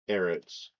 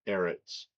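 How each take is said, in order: No difference in how they are said.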